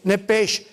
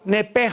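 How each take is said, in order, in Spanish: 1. La palabra termina en un sonido sh simple. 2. La palabra termina en un sonido h áspero y gutural.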